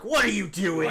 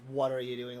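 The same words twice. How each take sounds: First: It is said in an accusing tone. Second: It is said as a plain, neutral question.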